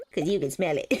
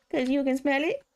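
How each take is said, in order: First: Said in the usual way. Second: Quoted punchline lifted at the end; higher, rising punchline. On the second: Retold or imitated. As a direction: raise it like a cheeky question.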